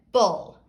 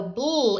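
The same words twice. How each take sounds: First: "bull" with an uh between b and l; with a schwa. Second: First "bull" as a tight b-l blend, like "bloo"; "bull" said "bl", no vowel between the consonants; no schwa. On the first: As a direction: say "bull" as "buhl", the vowel clearly sounded. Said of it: "So bull is different than bull". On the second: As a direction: run b straight into l in "bull". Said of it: "there's no schwa in there". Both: Shown as a demonstration.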